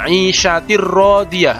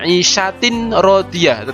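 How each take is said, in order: First: The n sound merges fully into the r. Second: The n sound is clearly pronounced before r. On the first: The speaker calls it right. "tetapi masuk ke huruf ro" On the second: The speaker calls it wrong. "bukan isyatin rodiyah"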